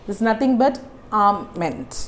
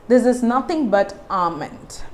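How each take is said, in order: The two takes are said the same way.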